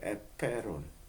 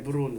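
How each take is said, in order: First: The middle sound is a p, as in Hebrew. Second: The middle sound is a b, as in Korean. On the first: This is how the original text reads. "여기에 에페론이라고 되어 있어요" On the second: This is how the translation renders it. "우리말로는 에브론이라고 번역했는데"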